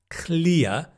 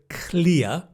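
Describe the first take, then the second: Both takes have the same delivery.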